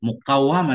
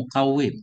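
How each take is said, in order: First: The vowel after the doubled w is a. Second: The vowel after the doubled w is i. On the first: "dengan fathah waw" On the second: "kasrahnya waw"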